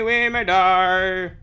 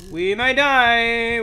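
First: Slow, oddly voiced mock dread; hammed-up doom. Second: Slow drawn-out alarmed cry; dramatic alarm. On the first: Gamer as boss approaches, hammed-up slow doom. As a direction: ham it up like a doomed hero. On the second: Pretend. Gamer as boss approaches, slow dramatic alarm. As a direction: stretch it out. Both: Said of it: "repeated differently".

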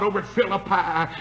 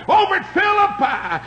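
First: Said in the usual way. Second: Over at Philippi lifted high and louder; stressed phrase. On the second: Acted.

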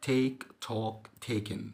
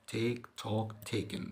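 No difference in how they are said.

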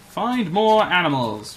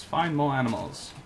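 First: Higher, louder and slow declaration; emphatic. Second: Said in the usual way. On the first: Real, not acted. Player declaring the next task, emphatic. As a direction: announce the new mission. Repeats goal louder first.

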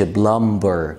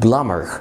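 First: Plumber with the b sounded, "plum-ber"; wrong pronunciation. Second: Plumber said as "plummer", b silent; correct pronunciation. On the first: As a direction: plumber with a hard b in the middle. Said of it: "ما تقولش plumber". (plumber غلط بنطق الـ b) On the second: (plumber من غير الـ b) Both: Shown as a demonstration.

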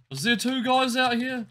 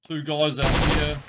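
First: Raised pitch, questioning disbelief; doubtful question. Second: Said in the usual way. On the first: Real, not acted. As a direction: ask it higher, doubting your eyes.

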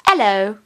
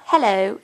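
First: "hello" with the h dropped, 'ello; British hello. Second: "hello" with the h sounded; wrong hello. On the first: Teacher corrects Kelsey's hello, British dropped h. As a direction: drop the h of "hello". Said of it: "it's hello". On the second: Teacher shows Kelsey the wrong hello, h sounded. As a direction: say "hello" with a clear opening h. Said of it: "it's not he-, it's not hello". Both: Shown as a demonstration.

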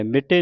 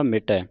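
First: ਮਿਟੇ ending in a close "-ay"; ਮਿਟੇ with plain "e" ending; wrong final vowel. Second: ਮਿਟੈ ending in open "-ai" as in "cat"; ਮਿਟੈ as "mi-tae", double-stroke vowel; open final vowel. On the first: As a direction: say ਮਿਟੇ as "mi-tay", the mistake. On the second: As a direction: finish ਮਿਟੈ on an open, falling "ai". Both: Shown as a demonstration. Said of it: "ਮਿਟੇ ਨਹੀਂ ਪੜ੍ਹਨਾ".

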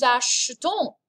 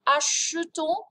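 First: "achetons" with the middle e barely there; glossed-over vowel. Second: "Achetons" higher, with a full "uh" in the middle; exaggerated vowel. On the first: Teacher shows class the nous form, "achetons" with a faint e. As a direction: gloss over the e in "achetons", nearly "ash-ton". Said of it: "you just kind of gloss over that vowel sound". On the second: Teacher exaggerates it for class, "Achetons" with the e sounded. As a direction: sound out the e in "Achetons": "ah-shuh-ton". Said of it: "if I exaggerate it". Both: Shown as a demonstration.

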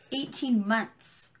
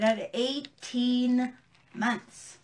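First: Slow disbelief. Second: Slow emphatic. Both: Real, not acted. Stressing outrage at sentence.

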